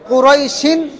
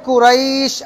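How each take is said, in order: First: The word keeps its final 'in' ending. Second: The word ends without its final ending. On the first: The reader continues without stopping. "আর যদি না থামেন কুরাইশিন" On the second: The reader stops on this word. "থামলে কুরাইশ"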